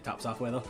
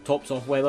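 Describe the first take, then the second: First: It is said the Scottish way, 'taps'. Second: It is said in a more neutral way.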